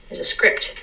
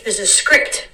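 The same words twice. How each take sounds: First: There's a script whispered softly. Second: Said in the usual way. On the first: Shown as a demonstration. Host hinting at life's hidden script, whispered. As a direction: breathe There's a script like a secret.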